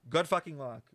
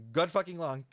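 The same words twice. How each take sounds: The two takes are said the same way.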